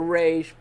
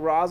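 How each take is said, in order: First: The name ends with an 'sh' sound. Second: The name ends with an 's' sound. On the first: The speaker calls it wrong. "if you pronounce it Raish, you're wrong" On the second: The speaker calls it right. "I'm gonna say Ra's"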